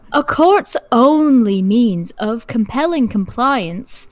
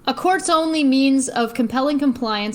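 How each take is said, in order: First: It is read slowly in a southern accent. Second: It is read in the speaker's ordinary accent.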